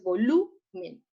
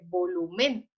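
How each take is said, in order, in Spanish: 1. El acento está en la sílaba del medio, lu. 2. El acento está en la última sílaba, men. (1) "la sílaba tónica que suena más fuerte es la lu" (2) "Si colocamos el acento en la E, diría, diría volumen y no se dice volumen"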